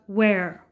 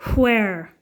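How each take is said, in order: First: It begins with a plain w sound. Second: It begins with a breathy h sound. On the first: The speaker calls it wrong. "we usually pronounce that where" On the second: The speaker calls it right. "the correct pronunciation is actually where"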